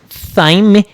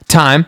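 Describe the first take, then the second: First: It begins with a 'th' sound. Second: It begins with a plain 't' sound. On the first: The speaker calls it wrong. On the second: The speaker calls it right.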